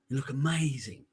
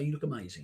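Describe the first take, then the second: First: It is said slowly with audible breath. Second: It is said quickly and plainly. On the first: The compliment sounds sincere and heartfelt. "I said it with the breathing" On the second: The compliment sounds casual and offhand. "that's all I said very quickly"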